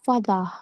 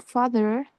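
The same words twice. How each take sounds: First: "fada" with a D for the th and no final R; South African father. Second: Said in the usual way. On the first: Shown as a demonstration. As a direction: say "fada", D sound and open ending. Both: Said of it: "pronounced fada".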